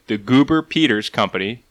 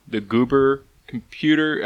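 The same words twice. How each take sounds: First: Said in the usual way. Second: Words slurred as if marbles in mouth; slow, tangled mispronounced name. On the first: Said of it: "uh, sorry". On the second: Real, not acted. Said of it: "I got marbles in my mouth today".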